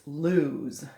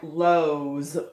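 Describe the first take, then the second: First: The vowel sounds like 'oo' in 'moon'. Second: The vowel sounds like 'oh' in 'go'. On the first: The speaker calls it right. "but it's lose" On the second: The speaker calls it wrong. "it looks like lows"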